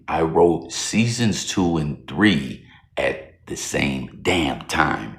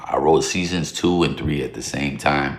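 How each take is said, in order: First: It is said in a put-on voice. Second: It is said in his normal voice.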